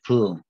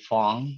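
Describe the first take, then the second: First: The name is said with a Vietnamese pronunciation. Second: The name is said with an English-style pronunciation. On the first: "if you really want to go by the Vietnamese pronunciation" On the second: "you can call me Pong"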